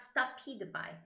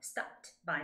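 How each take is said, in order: First: Stopped sounds like the two-syllable word stupid. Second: Stopped is said as one short syllable. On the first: The speaker calls it wrong. "not stopped by ... it sounds like stupid by" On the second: The speaker calls it right. "you have to say stopped by"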